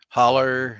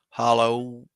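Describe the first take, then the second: First: The word ends with an 'er' sound. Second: The word ends with an 'oh' vowel. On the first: The speaker calls it wrong. "It don't say holler" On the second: The speaker calls it right. "it's hollow"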